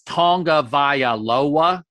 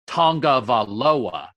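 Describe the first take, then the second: First: The name is said with six syllables. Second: The name is said with five syllables. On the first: The speaker calls it right. "And it's Tongavaialoa. It's six" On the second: The speaker calls it wrong. "one guy was saying it with five"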